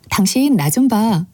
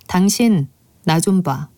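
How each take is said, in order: First: It sounds soft and not scary. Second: It sounds menacing and scary.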